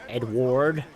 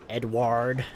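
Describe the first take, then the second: First: The name is said in an American accent. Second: The same.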